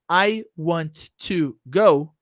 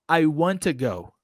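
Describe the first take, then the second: First: Both t sounds are said separately. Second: The two t sounds merge into one. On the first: The speaker calls it wrong. "So instead of saying" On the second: The speaker calls it right. "the T at the end of the word want and the T in the beginning of the word to will connect and make only one T sound"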